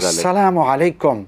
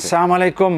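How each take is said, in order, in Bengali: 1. অভিবাদনটি যত্ন সহকারে উচ্চারণ করা হয়েছে। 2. অভিবাদনটি বিকৃতভাবে উচ্চারণ করা হয়েছে। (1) "আল্লাহর পক্ষ থেকে তোমাদের জন্য শান্তি নাযিল হোক" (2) "মানে হলো তুমি ধ্বংস হও"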